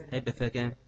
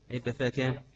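Both takes have the same delivery.

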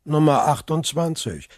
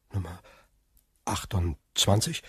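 First: Said in the usual way. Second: Stunned echo. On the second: Acted. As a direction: repeat the number in disbelief. Villefort echoes, stunned.

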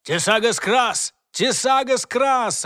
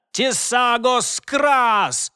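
First: High, loud repeated incantation; shouted spell. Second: Slow, drawn-out spell shout. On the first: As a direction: call the spell twice from afar. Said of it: "раздалось с другого конца тоннеля". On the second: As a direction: bellow the incantation slowly. Casting a battle spell. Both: Acted.

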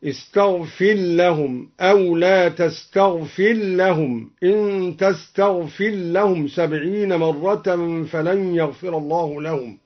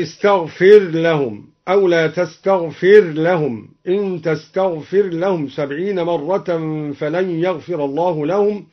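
First: "استغفر لهم" as istaghfil-lahum; ra merged into lam. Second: Said in the usual way. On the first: Shown as a demonstration. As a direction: recite "تستغفر لهم" with r swallowed into a doubled l. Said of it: "أدغم الدوري الراء في اللام بالخلاف هكذا". (إدغام الراء في اللام في "استغفر لهم") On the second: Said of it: "أدغم الدوري الراء في اللام".

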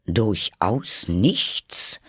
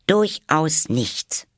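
First: Slow, drawn-out insistent question; pressing question. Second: High, slow, emphatic; firm denial. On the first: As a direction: press her on it, slowly. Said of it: "drang der König in sie". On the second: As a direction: lean hard on durchaus, drawn out. Alice answers firmly. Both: Acted.

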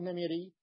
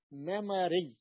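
First: نميري said with short i after the m, "namiri"; wrong vowel. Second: نمري said slowly with an a after the m, "namari"; middle fatha. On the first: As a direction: say نميري with kasra on the middle letter. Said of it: "ما تقول نميري". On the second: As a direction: open the middle vowel of نمري to a. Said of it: "ننقلها إلى الفتح". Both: Shown as a demonstration.

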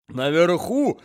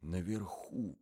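First: Put-on higher, louder old man squeezing the word out; old man's voice. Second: Softer, hushed repeat; whispered. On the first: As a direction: croak it out between coughs. Old man between coughs. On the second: Acted. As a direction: say it under your breath. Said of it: "прошептал молодой человек".

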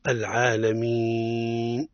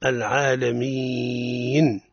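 First: العالمين stretched like an arrow, slow; wrong long elongation. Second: العالمين sung with an extra ya in the drawn vowel; wrong melodic elongation. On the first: Teacher showing the long elongation mistake. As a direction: draw out العالمين long and straight. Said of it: "أو يقولون". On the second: Teacher showing the mistake of sung, over-melodic elongation. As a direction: stretch العالمين melodically, adding a ya sound. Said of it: "هنا تولد حرف ليس من أصل". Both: Shown as a demonstration.

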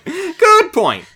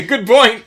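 First: Laughing. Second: Said in the usual way. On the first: Real, not acted. Second take, laughing high.

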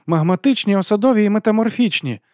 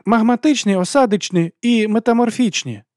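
First: High-voiced mocking correction. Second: High, loud schoolboy yell; eager shout. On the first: Abby correcting a classmate's quiz answer, mildly mocking. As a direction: answer high, with a touch of mockery. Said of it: "відповіла Еббі насмішкувато". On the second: Larry shouting a quiz answer to the teacher, eager yell. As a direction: call out the answer high and forceful. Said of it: "заволав Ларі". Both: A narrator's reading.

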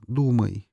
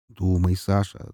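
First: Said in the usual way. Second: Slow, drawn out to himself; slow self-urging. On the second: Retold or imitated. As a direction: slowly urge yourself on.

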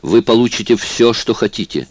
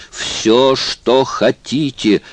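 First: Said in the usual way. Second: Slow, higher desperate repeat of что хотите. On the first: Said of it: "повторил он на сей раз". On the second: A narrator's reading. Stoyt begging Obispo outright, slow and desperate. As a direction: give up reason and just beg. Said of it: "отбросив всякие апелляции к разуму".

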